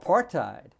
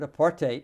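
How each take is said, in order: First: It is said in a non-South African way. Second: It is said the way South Africans say it.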